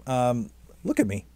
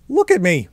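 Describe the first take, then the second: First: Said in the usual way. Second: Louder exclamation. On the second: Real, not acted. Calling attention to self.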